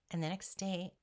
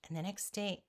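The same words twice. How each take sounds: The two takes are said the same way.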